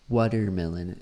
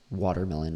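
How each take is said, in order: First: It is said with a non-native accent. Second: It is said with a native English accent. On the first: "kind of what I'm hearing" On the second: "more like what a native speaker would say"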